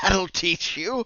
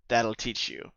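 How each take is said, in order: First: It is said while laughing. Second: It is said plainly, without laughter.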